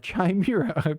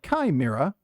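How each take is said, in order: First: The word begins with a CH sound. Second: The word begins with a hard K sound. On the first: "or a ch sound, like Chimera" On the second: "with a hard K, like Chimera"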